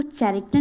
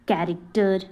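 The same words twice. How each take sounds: First: कैरेक्टर misread with an initial "ch"; mispronounced कैरेक्टर. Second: Said in the usual way. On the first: Shown as a demonstration. Teacher warning learners off a misreading, कैरेक्टर said with "ch". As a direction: begin कैरेक्टर with ch as in chair. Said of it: "इसको कैरेक्टर नहीं पढ़ते". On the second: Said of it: "इसको क्या पढ़ते हैं".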